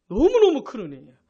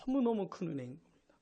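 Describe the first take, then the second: First: "너무너무" punched loud; forceful emphasis. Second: "너무너무" soft and low; hushed emphasis. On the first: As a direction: repeat it loudly to drive the point home. Louder repeat for emphasis. (큰 소리로 힘주어 강조) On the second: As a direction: lower the voice on the great grace. First, softer statement of grace. (낮고 작은 소리로 강조) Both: Real, not acted.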